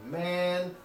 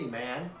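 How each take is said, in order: First: The pitch rises from a high level. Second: The pitch rises from a lower level. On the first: "Chinese has a high rising tone similar to ours" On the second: "Chinese has a second rising tone similar to this one here"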